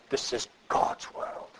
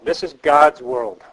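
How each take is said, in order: First: Soft unvoiced whisper of the quote. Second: Slow and weighty, each word set down; slow emphatic statement. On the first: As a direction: breathe it out as a hushed whisper. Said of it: "I'm not gonna try to do it". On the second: Shown as a demonstration. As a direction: announce it slowly so it sinks in. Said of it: "here's something we need to learn well".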